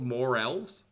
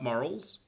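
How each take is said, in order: First: The word is said as morels. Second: The word is said as morals. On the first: The speaker calls it right. "they're called morels" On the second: The speaker calls it wrong. "not morals"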